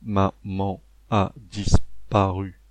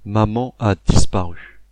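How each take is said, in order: First: It is said in a flat robotic voice. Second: It is said in a natural voice.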